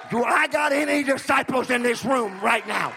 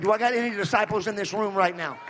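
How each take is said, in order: First: The same question louder and higher, hitting I; louder repeat. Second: Said in the usual way. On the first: Shown as a demonstration. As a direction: repeat it harder to stir the room. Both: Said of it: "Let me ask you something".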